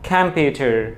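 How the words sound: The final r sound is pronounced. "আমেরিকানের মতো করে ... আরটা কিন্তু উচ্চারণ হচ্ছে"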